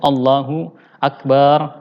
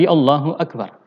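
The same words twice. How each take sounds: First: The vowel after the b is drawn out long. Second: The vowel after the b is kept short. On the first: The speaker calls it wrong. "tidak boleh memanjangkan uh, huruf ba-nya" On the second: The speaker calls it right. "Tapi Allahu Akbar"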